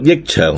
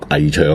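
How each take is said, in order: First: The first syllable sounds like yik. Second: The first syllable sounds like ngai. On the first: The speaker calls it right. "可以读益长" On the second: The speaker calls it wrong. "唔好读危长"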